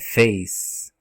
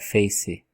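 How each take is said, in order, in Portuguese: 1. A palavra termina no som de consoante. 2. Um som de vogal vem depois da consoante final. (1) "ele é mudo, ele não tem som de E nem de I" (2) "O pessoal fala face"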